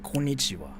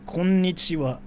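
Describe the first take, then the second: First: The double n sound is cut short. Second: The double n sound is held long. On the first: "But in English, people say konnichiwa" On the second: "so this is konnichiwa"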